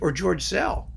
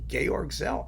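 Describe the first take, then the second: First: The first name is said as English George. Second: The first name is said as German Georg. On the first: "I can pronounce it however I damn well please" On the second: "leave the E off of George"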